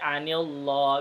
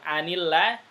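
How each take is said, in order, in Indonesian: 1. Huruf l dalam Allah dibaca tebal dan berat. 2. Huruf l dalam Allah dibaca tipis dan ringan.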